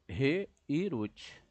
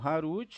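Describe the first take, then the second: First: The word begins with a 're' sound. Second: The word begins with an 'ha' sound. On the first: The speaker calls it right. "eu leio como" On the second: The speaker calls it wrong. "eu não leio como Harut"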